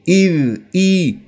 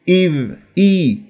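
The two takes are said the same way.

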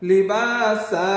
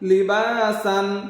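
First: The word ends with a long a sound. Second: The word ends with an n sound. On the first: The reader stops at this word. "ওয়াকফ করলে কি হবে লিবাসা, এক আলিফ টান" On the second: The reading continues without a stop. "সিন আলিফ দুই জবর সান"

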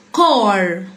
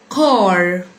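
First: The vowel is a broad, deep 'ah' sound. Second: The same.

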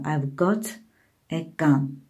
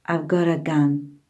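First: 'Got a' is said as two separate words. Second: 'Got a' is blended into one reduced word. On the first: "Uzun şəkildə belə olacaqdır" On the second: "Have got a ifadəsinin qısaldılmış forması gota"

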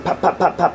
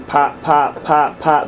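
First: The pops follow each other quickly. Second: The pops are spaced slowly apart. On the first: The laser fires at a high rate. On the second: The laser fires at a low rate.

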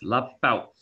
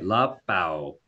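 First: The final w is cut off with a glottal stop. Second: The final w glides off smoothly at the end. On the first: The speaker calls it right. "but it's lapau" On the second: The speaker calls it wrong. "I'm hearing lapau, right?"

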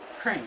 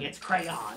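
First: Crayon is said with one syllable, New York-style. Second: Crayon is said with two syllables.

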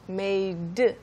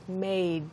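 First: The final 'd' sound is fully released. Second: The final 'd' sound is cut off and not released. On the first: "So usually when you say made" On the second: "in this case, it's made, made. You stop the sound"

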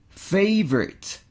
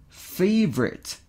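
Both takes have the same delivery.

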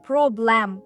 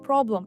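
First: The second vowel is a full, clear vowel. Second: The second vowel is a reduced schwa. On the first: The speaker calls it wrong. "Я не говорю problem, я не говорю а" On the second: The speaker calls it right. "От якраз тут стоїть звук шва, який ми практично не вимовляємо"

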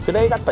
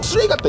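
First: The insult is said softly and weakly. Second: The insult is said harshly and forcefully. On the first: The insult has lost its bite lately. "뉘앙스도 좀 약간 약해진 느낌이 있어" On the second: This is how the insult used to sound. "쓰레기 같다 이랬는데"

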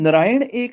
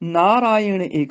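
First: The first two vowels are short. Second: The first two vowels are long. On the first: The speaker calls it wrong. "ਨਹੀਂ ਬੋਲਣਾ" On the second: The speaker calls it right. "ਨੰਨੇ ਨੂੰ ਕੰਨਾ ਰਾਰੇ ਨੂੰ ਕੰਨਾ"

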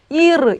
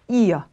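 First: The final r is a clear consonant sound. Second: The final r becomes a vowel sound. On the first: "이르 이렇게 읽어도 물론 되겠지만" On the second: "독일식 발음은 이어라고 발음해요"

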